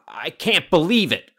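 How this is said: It is said in an angry tone.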